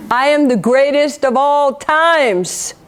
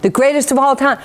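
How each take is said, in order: First: Slow, drawn-out champion's boast, imitated; Muhammad Ali. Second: Said in the usual way. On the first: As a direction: proclaim it slowly, stretching the last word. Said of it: "Muhammad Ali".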